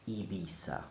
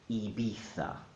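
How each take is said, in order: First: It is said with a Latin American accent. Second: It is said with a Castilian accent.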